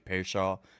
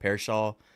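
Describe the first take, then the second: Both takes have the same delivery.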